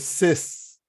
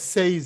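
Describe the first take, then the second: First: The vowel is a single plain e sound. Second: The vowel glides into an i sound. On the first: The speaker calls it right. "É ses" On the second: The speaker calls it wrong. "Não é seis"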